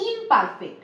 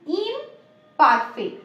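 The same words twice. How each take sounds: First: Said in the usual way. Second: imperfect very slow, split into ইম and perfect; slow, split word. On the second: Shown as a demonstration. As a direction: dictate imperfect slowly, with a gap after ইম. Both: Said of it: "imperfect ওয়ার্ডটাকে তোমরা যদি break করো".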